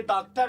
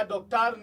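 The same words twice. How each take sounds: First: डॉक्टर said with a plain 'aa', as daaktar; without the O sound. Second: डॉक्टर said with a rounded 'o', as doktar; with the O sound. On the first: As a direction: open 'aa' in the first syllable of डॉक्टर. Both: Shown as a demonstration. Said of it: "इसमें ओ का sound होता है".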